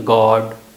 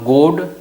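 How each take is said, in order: First: The vowel is an open rounded 'aw' sound. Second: The vowel is a close rounded 'o' sound. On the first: The speaker calls it right. "बल्कि गॉड" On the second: The speaker calls it wrong. "न गोड"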